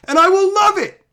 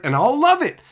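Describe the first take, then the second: First: High and loud; emphatic. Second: Said in the usual way. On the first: Real, not acted. Vlogger insisting he'd love good representation, high and loud. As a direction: declare it with real gusto.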